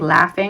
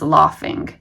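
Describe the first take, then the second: First: The vowel is a short A sound. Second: The vowel is a broad 'ah' sound. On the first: "We'd say laughing with a short A" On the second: "they mark it as if it was pronounced laughing"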